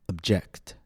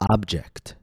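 First: The stress is on the second syllable. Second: The stress is on the first syllable. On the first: It is a verb: to disagree. "After that, I'll say it as a verb, with stress on the second syllable" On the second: It is a noun: a thing. "First, I'll say it as a noun, with stress on the first syllable"

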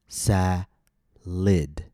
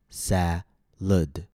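First: The second syllable has a short 'ih' vowel. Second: The second syllable has a short 'uh' vowel. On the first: "with an I sound" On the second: "with an U sound"

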